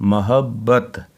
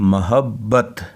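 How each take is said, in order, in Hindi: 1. पहले अक्षर में स्वर 'a' है। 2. पहले अक्षर में स्वर 'a' है।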